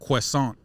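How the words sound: It is said with a French pronunciation. "the way it's pronounced is croissant"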